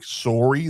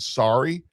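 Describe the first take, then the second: First: The word is said with a Canadian accent. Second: The word is said with an American accent.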